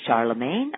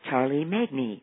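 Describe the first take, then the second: First: It is said as one whole word, the usual way. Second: It is sounded out letter by letter, literally. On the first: The speaker calls it right. "I simply told them the pronunciation" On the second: The speaker calls it wrong. "if they tried to sound it out, it would be Charlie Magne, not close"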